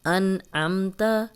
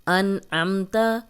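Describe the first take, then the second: No difference in how they are said.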